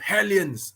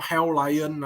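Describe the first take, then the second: First: The name is said smoothly as one word. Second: The name is split into two words, hell and lion. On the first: The speaker calls it right. "Not Hell Lion" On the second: The speaker calls it wrong. "Not Hell Lion"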